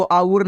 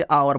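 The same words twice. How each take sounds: First: आउर with an "oo" glide, "aa-oor"; wrong reading of OUR. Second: आवर with a V/W glide, "aa-var"; correct reading of OUR. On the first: Teacher warning learners off a misreading, आउर as "aa-oor". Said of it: "नहीं पढ़ना". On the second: Teacher giving learners the right reading, आवर as "aa-var". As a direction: say आवर as "aa-var", lower pitched. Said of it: "इसे आपको क्या पढ़ना है". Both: Shown as a demonstration.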